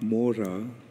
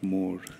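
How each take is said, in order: First: The word ends with a final 'a' vowel. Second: The word ends on a consonant, no final vowel. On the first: The speaker calls it wrong. "not Mora" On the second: The speaker calls it right. "in Bengali often the A at the end is not pronounced"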